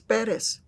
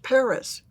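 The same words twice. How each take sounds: First: The name is said with a Spanish pronunciation. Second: The name is said with an English pronunciation. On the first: "It's Perez" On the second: "I don't care if you say it in English"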